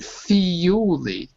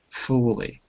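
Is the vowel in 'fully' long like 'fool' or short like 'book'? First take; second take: long; short. First: The vowel is a long oo sound. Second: The vowel is a short uh sound. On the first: The speaker calls it wrong. "not fully" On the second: The speaker calls it right. "it's an uh sound. Fully. Almost like book"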